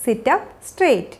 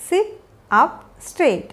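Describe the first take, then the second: First: Said in the usual way. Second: Slow, three separated words. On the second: Shown as a demonstration. Teacher modelling a posture instruction for learners, word by word. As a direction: pause after "sit" and after "up".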